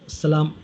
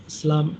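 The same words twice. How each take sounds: No difference in how they are said.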